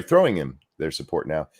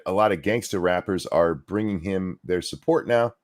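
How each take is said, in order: First: "throwing" pushed out as the fixed word; correcting stress. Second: Said in the usual way. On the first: Real, not acted. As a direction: lean on "throwing" to correct the misread. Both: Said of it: "Sorry, throwing him their support now".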